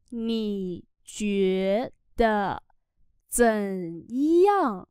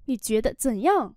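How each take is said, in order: First: Very slow drawn-out teaching pronunciation; slow syllable-by-syllable model. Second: Said in the usual way. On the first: Shown as a demonstration. Teacher models Chinese phrase for learners, very slowly. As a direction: stretch each syllable, pause between them.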